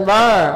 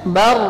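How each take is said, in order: The two takes are said the same way.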